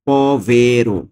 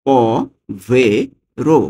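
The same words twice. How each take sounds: First: Said in the usual way. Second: Slow repeat. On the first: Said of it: "teacher gives the word". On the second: Shown as a demonstration. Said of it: "teacher repeats slowly".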